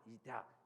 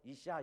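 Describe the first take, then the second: First: The middle consonant is a d sound. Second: The middle consonant is an s sound. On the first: It reveals the speaker is from Galilee. The speaker calls it wrong. "시옷을 뒤, 뒤긋 발음을 한다고 그래요" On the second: This is how the word should have been said. The speaker calls it right. "이샤 이렇게 말했어야 됐을 거예요"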